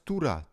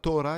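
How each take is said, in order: First: The first vowel sounds like 'oo'. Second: The first vowel sounds like 'oh'. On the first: The speaker calls it right. "it's Tura" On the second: The speaker calls it wrong. "So it's not Tora"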